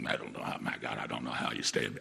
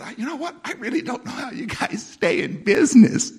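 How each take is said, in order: First: Much lower, grumbling "my God" disgust; rude version. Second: Higher and louder, cheerful teasing tone; real nice way. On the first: Shown as a demonstration. The rude way he did not call the company. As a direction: growl it out like an exasperated customer. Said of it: "I didn't say it like that". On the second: Retold or imitated. Friendly complaint to the manager about the company. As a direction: say it sweetly, like a friendly jab. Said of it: "I said in a real nice way".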